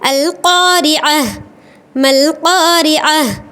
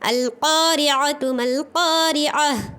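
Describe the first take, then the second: First: The first word ends in 'ah' before a stop. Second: The first word ends in 'tu' and runs on. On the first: The reader stops after the word. "अगर मुझे स्टॉप करना है तो ये जो ता मरबूता है वो हाय साकिना बन जाता है।" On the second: The reader continues without stopping. "अल क़ारिअतु कही। क्योंकि मुझे स्टॉप नहीं करना है।"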